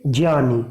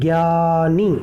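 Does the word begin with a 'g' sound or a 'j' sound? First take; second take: j sound; g sound. First: The word begins with a 'j' sound. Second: The word begins with a 'g' sound. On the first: The speaker calls it right. "इस वर्ण की शुरुआत होती है ज से" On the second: The speaker calls it wrong. "जबकि ये गलत है इसका उच्चारण"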